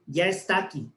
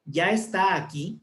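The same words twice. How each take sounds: First: "Ya está aquí" with the two a sounds of "está aquí" run together into one; merged vowels. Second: "Ya está aquí" with the two a sounds of "está aquí" both said, the a held; careful diction. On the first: Teacher showing the class how the double a gets swallowed. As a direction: blend "está aquí" into "estaquí", dropping an a. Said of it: "nos podríamos obviar las dos A". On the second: Teacher showing the class the full pronunciation with both a sounds. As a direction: stretch "está" so both a sounds are heard before "aquí". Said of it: "pero hay dos A".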